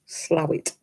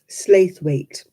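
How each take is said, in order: First: The name is pronounced as 'Slowit'. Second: The name is pronounced as it is spelled. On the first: The local way of saying the name. The speaker calls it right. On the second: An outsider's reading of the name. The speaker calls it wrong. "they pronounce it wrong"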